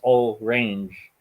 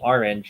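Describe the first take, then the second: First: The word is split, ending clearly in 'range'. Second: The word is said the usual way. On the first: "if it's all range, then suddenly range becomes something you could rhyme with" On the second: "instead of saying orange"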